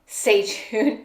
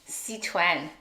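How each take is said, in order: First: It is said the Cantonese Chinese way. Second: It is said the Mandarin Chinese way. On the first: "In Cantonese Chinese, it's Seichun" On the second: "in Mandarin Chinese, it's Sichuan"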